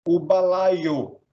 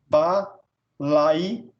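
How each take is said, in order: First: Said in the usual way. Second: "balaio" broken with pauses as ba, lai, o; split into syllables. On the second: Shown as a demonstration. Teacher showing syllables of "balaio", ba-lai-o in separate beats. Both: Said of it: "fica na mesma sílaba".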